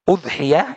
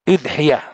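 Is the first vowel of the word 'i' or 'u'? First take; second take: u; i. First: The first vowel is a rounded 'u'. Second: The first vowel is a front 'i'. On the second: "boleh pula dengan kasra"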